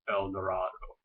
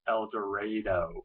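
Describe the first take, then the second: First: The name has its common, widespread pronunciation. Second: The name has a local, regional pronunciation. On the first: "Most people will pronounce this El Dorado" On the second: "In Decatur, though, we pronounce it El Dorado"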